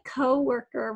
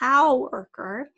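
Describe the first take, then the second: First: The first syllable has a long O sound. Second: The first syllable sounds like 'cow'. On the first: The speaker calls it right. "we're going to say that long O sound" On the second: The speaker calls it wrong. "C O W spells cow"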